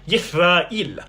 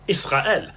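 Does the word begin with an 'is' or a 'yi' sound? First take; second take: yi; is. First: The word begins with a 'yi' sound. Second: The word begins with an 'is' sound. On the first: This is the ancient pronunciation. "in biblical Hebrew, it was pronounced completely differently, something like Yithrael" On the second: This is the modern pronunciation. "In modern Israeli Hebrew, Israel is typically pronounced something like Israel"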